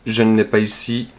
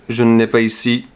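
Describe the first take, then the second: No difference in how they are said.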